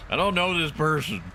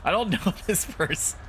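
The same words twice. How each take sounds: First: Higher-pitched granny, kept composed; old lady. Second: Put-on high old-lady voice breaking into laughter; laughing in character. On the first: Acted. Old lady denies knowing someone, high granny voice. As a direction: hold the old-lady voice without cracking up. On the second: Player cracks up voicing the old lady, laughing in character. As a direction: crack up halfway through the granny line.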